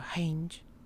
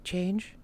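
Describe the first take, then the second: First: The word begins with a breathy h sound. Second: The word begins with a ch sound. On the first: "she will go hi instead of ch" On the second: "a ch sound"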